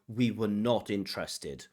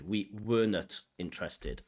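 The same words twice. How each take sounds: First: The word 'not' carries strong stress. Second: The word 'not' carries no strong stress. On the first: The speaker calls it right. "you should stress the not" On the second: The speaker calls it wrong. "sounds strange"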